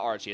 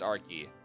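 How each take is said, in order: First: The name is said with a ch sound. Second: The name is said with a k sound. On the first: The speaker calls it wrong. "so it's not Archie" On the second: The speaker calls it right. "it's Arky"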